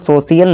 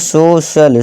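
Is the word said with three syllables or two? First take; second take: three; two. First: The word has three syllables, sho-shi-yal. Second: The word has two syllables, so-shal. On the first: The speaker calls it wrong. "इसे सोशियल नहीं दोस्तों" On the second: The speaker calls it right. "इसे सोशल, श का आवाज़ निकालना है"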